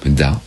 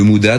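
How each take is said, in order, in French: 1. La voyelle après le m est complètement supprimée. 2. La voyelle après le m est bien prononcée.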